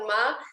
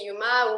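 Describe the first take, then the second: First: The name starts directly with a vowel sound. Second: The name starts with a 'y' glide sound.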